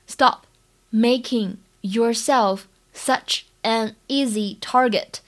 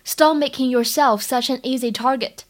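First: Slow, word by word with pauses; careful slow dictation pace; slow model reading. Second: Said in the usual way. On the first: Shown as a demonstration. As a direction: break it into slow, separate chunks for learners. Teacher repeats it slowly in chunks.

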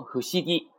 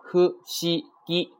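First: Said in the usual way. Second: Hu, shi, gi as three separate sounds, held high; kana by kana. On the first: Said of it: "读成". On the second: Shown as a demonstration. Teacher lists three kana, hu, shi, gi apart. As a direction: space out hu, shi, gi one at a time. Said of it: "它是由三个假名啊".

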